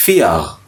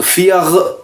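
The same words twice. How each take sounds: First: फिया with the end r almost gone; soft final R. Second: फियर with the final r sounded fully; wrong hard R. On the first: Teacher models German vier as a soft फिया. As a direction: let फिया end open, the r barely there. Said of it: "वो फिया". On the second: Teacher warns learners off saying फियर with hard r. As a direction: say फियर with a clear, full end r. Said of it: "फियर नहीं कहना". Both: Shown as a demonstration.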